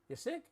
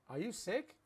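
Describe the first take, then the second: First: The words 'are you' are shortened to one syllable. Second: The words 'are you' are said in full.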